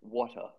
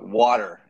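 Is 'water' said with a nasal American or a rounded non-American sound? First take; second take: rounded; American. First: It has a rounded non-American sound. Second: It has a nasal American sound.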